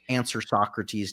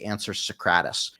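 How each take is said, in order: First: Socrates is pronounced the standard, expected way. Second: Socrates is pronounced in a deliberately odd way.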